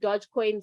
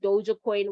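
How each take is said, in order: First: The first part is said as one syllable. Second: The first part is said as two syllables. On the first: This is the speaker's own way of saying it. "I call it Dogecoin" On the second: This is how some other people say it. "Some people pronounce it Doja coin"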